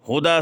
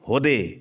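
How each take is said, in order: First: The final vowel is an open a sound. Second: The final vowel is bent to an e sound.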